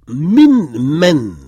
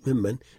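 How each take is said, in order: First: The two words are said separately. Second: The two words merge into one form.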